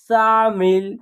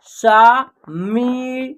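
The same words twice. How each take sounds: First: Said in the usual way. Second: "शामिल" as शा, मि, ल with gaps; very slowly separate "शामिल" into three sounds; spelled out by syllable. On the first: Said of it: "एक शब्द तैयार हो जाएगा". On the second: Shown as a demonstration. Teacher sounding out a word, "शामिल" syllable by syllable. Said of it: "तीनों को जोड़ेंगे तो एक शब्द".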